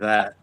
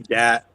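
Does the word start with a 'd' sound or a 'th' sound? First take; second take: th; d. First: The word begins with a clear th sound. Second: The word begins with a hard d sound. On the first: "if I say dat or that" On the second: "if I say dat or that"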